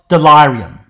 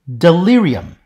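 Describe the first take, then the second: First: The stressed vowel is long. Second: The stressed vowel is short. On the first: This is the expected pronunciation if lengthening had happened. The speaker calls it wrong. "not delirium" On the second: This is the actual modern pronunciation. The speaker calls it right.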